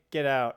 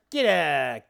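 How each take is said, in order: First: Said in the usual way. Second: Louder, hammed-up New York accent; broad, playful New York accent. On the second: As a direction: shoo them off in mock New York style. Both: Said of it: "do my New York accent".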